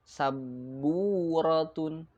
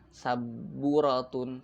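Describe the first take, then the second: First: The vowel after b is held long. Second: The vowel after b is short. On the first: The speaker calls it right. "tapi panjang" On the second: The speaker calls it wrong. "bukan saburatun"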